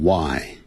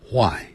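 First: WHY on a plain w, no h; American English why. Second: WHY with a breathed h first, "hwai"; British English why. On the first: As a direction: say why as "wai". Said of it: "美式英语念成". (美式发音，why不带h音) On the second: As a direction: puff an h into why. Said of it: "英式英语念成". (英式发音，why带h音，读作hwai) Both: Shown as a demonstration.

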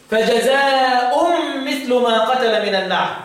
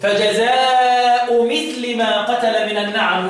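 First: Slow recitation, "فجزاء" ending in nasalised -un, "مثل" as mithlu; tanween and raf'. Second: Slow recitation, "فجزاء" ending in plain -u, "مثل" as mithli; no tanween, kasra. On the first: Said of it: "جبتها بالتنوين ومثل ما في خفضه الرفع". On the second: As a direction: chant "فجزاء" without the final n, "مثل" with an i ending. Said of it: "يقولوا إيه؟". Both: Shown as a demonstration.

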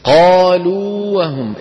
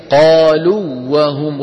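First: قالوا with the و held long, not merged; long madd on waw. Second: قالوا وهم with the و merged into وهم; wrong merged waw. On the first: Teacher showing the correct unmerged reading. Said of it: "التقى في النطق إيه؟". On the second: Teacher demonstrating the wrong idgham. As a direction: run قالوا into وهم with one doubled و. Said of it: "لو أدغمنا لقلنا إيه؟". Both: Shown as a demonstration.

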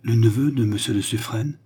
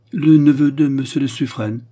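First: Questioning, rising with dawning hope; double-check it, hardly daring to believe; understated excited question; breathless disbelief. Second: Loud, higher-pitched echo of the question; astonished, emphatic answer; startled reply. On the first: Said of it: "continua André, dont les joues s'empourprèrent". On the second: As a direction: confirm it forcefully, taken aback. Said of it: "de plus en plus saisie du changement". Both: A narrator's reading.

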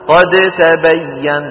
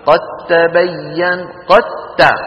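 First: قد تبين with the د of قد kept separate and heard; wrong pronunciation. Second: قد تبين with the د merged into a doubled ت, like قتّبين; correct assimilation. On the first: Teacher shows students the forbidden reading, slow and separated. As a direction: say قد تبين slowly, pronouncing the د fully before ت. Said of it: "لا نقول ذلك أبدًا". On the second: Teacher gives students the correct merged reading. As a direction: run قد into تبين so only a doubled ت is heard. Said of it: "بل ندغم الدال في التاء ونقول إيه". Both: Shown as a demonstration.

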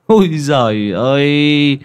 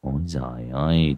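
First: High, loud and drawn-out scoffing cry of "Ôi giời ơi"; a swaggering villager's loud exclamation; boastful exclamation. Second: Low, soft muttered "Ôi giời ơi" with a falling end; a quiet, greedy mutter. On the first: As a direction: stretch out "Ôi" high and loud, bragging to the group. Hải scoffs, slapping his chest. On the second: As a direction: mumble "Ôi giời ơi" low under the breath. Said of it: "gật gù miệng lẩm bẩm". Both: Acted.

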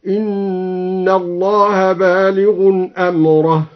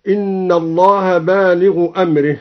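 First: بالغ with nunation and أمره in the accusative, chanted slowly; slow chant: بالغٌ أمرَه; recited with tanwin on بالغ. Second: Said in the usual way. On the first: Shown as a demonstration. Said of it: "بتنوين اسم الفاعل بالغ ونصب أمره هكذا". (ترتيل بطيء بتنوين بالغ ونصب أمره)

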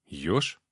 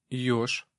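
First: Low, puzzled echo; surprised. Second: Put-on small hesitant boy voice; shy boy. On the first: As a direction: repeat it back in mild surprise. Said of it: "удивился я". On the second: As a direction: answer like a timid little boy. Shy boy answers the man. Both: A narrator's reading.

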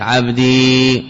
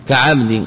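First: عبدي said very slowly with the final ي clearly held. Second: Said in the usual way. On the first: Shown as a demonstration. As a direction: hold the long ي at the end of عبدي. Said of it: "إثبات الياء ساكنة".

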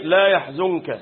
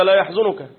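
First: لا يحزنك with a still nun running into the kaf; correct recitation. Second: لا يحزنك misread as yahzunuka, u after the nun; mistaken recitation. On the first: Teacher restates the rule for students, correct recitation. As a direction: close the nun in لا يحزنك, no vowel after it. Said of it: "من السكون". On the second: Teacher imitates someone self-taught from the mushaf, mistaken recitation. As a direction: add a damma to the nun of لا يحزنك. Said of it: "بيقرأ في المصحف هيقولها كده". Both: Shown as a demonstration.

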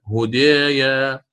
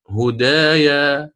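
First: Slow هدايا with the aa tilted to "eh"; taqlil reading. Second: Slow هدايا with open long aa; open fath reading. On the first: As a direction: draw out هدايا as "hudeeya". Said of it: "هكذا". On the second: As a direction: draw out هدايا as "hudaaya". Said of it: "الفتح مقدم أداء". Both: Shown as a demonstration.

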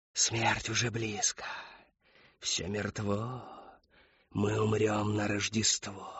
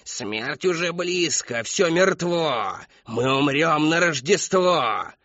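First: Soft, slow, hushed doom; feed her the words in an eerie murmur; quiet prompting. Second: Put-on high, slow, loud wailing of an old woman; old woman howls her doom over the hall; howling. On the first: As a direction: Whisperer prompts the old woman, softly and slowly. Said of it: "подсказала Шептунья". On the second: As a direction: howl the prophecy with all her breath. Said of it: "Всё выло и выло". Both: A narrator's reading.

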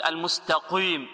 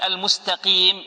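First: المستقيم with قي rounded to "qwee"; over-thicken the ق of المستقيم with a w-glide; wrong pronunciation. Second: المستقيم with clean قي and long pure i; correct articulation. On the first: Teacher mimics those who misread it, rounded faulty المستقيم. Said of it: "هذا خطأ". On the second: Teacher has students focus on the qaf, clean المستقيم. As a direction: say المستقيم keeping قي free of any w-glide. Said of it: "نركز على القاف". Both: Shown as a demonstration.

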